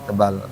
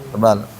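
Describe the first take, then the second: No difference in how they are said.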